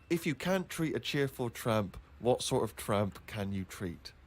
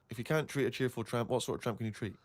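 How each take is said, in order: First: It is said at a normal reading pace. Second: It is said quickly, like a tongue twister.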